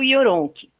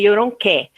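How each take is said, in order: First: The name ends without a final stressed vowel. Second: The name ends in a stressed final vowel. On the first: The speaker calls it wrong. "eu falo Yoronk" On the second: The speaker calls it right. "porque é um acento agudo, seria Yoronké"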